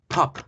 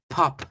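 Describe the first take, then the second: Both takes have the same delivery.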